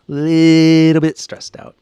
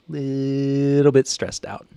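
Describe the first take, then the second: First: Louder stressed repeat. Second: Slow and stressed. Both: Real, not acted.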